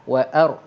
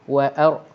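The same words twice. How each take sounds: Both takes have the same delivery.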